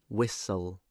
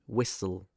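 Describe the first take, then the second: Both takes have the same delivery.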